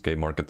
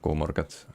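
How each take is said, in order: First: The first letter is said like "kay". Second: The first letter is said like "koo". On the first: "in English" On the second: "That's how you pronounce it in, in Finnish"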